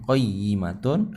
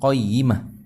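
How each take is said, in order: First: The word ends with a t sound and -un. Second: The word ends with a soft h sound. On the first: The reading continues without stopping. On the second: The reader stops at this word.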